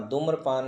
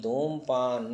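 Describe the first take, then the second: First: धूम्रपान said with an r after the m; dhoom-ra-paan, r sounded in धूम्रपान; wrong form. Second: धूमपान said with no r after the m; plain m straight into paan in धूमपान; correct form. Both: Shown as a demonstration. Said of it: "धूम्रपान नहीं".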